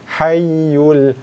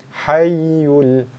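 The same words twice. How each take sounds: Both takes have the same delivery.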